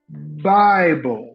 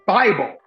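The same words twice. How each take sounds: First: The first sound is soft and stretched out. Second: The first sound is hard and sudden. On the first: "an easy onset would go" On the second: "instead of saying um, Bible"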